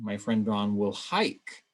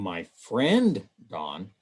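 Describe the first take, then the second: First: The stress is on the word hike. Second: The stress is on the word friend.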